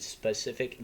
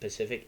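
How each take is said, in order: First: The word starts with an s sound. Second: The word starts without the s sound. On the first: "I could easily say specific" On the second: "I say it Pacific rather than specific"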